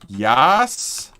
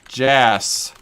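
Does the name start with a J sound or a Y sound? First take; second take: Y sound; J sound. First: The name starts with a Y sound. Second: The name starts with a J sound. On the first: "Is it yes, like yas?" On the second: "Or is it Jas, like Jasper?"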